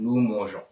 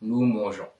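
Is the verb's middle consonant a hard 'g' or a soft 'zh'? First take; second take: soft zh; soft zh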